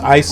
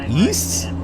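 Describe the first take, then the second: First: The word sounds like neither 'ace' nor 'east'. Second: The word sounds like 'east'. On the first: The speaker calls it right. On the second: The speaker calls it wrong.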